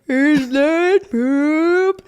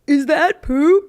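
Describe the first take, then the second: First: It is said slowly, drawn out. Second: It is said at normal speed.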